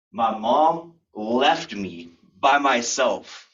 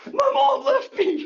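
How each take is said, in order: First: Drawn out word by word; slow, weighty statement. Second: Very high, loud mock wail; hammed-up distraught wail. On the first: Real, not acted. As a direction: land each phrase with dramatic pauses. Slow dramatic telling of abandonment. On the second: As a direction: play an abandoned kid squealing to police. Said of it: "Okay, calm down, son".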